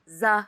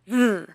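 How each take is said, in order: First: It is said as a buzzing z sound. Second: It is said with the tongue between teeth. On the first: The speaker calls it wrong. "She pronounced it like ze in Vietnamese" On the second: The speaker calls it right. "Put your tongue between your teeth like this"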